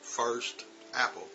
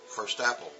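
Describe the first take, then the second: First: The two words are said slowly and separately. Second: The t runs into apple, like firs-tapple. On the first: "now that's correct" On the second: "when we say it in conversation"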